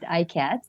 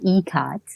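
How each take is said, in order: First: The first vowel sounds like 'eye'. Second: The first vowel sounds like 'ee'. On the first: The speaker calls it wrong. "I know some people pronounce it iCat" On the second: The speaker calls it right. "but it's actually eCat"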